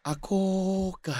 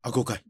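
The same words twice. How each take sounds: First: It is said gently and warmly. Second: It is said short and curt.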